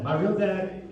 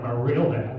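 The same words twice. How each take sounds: First: Said in the usual way. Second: Mock scornful stress on "real"; sneering "real". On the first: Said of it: "I don't say that maliciously". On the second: Shown as a demonstration. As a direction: spit out "My real dad" with contempt. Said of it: "I thought I would go like".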